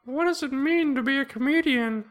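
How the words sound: It is said in a put-on funny voice.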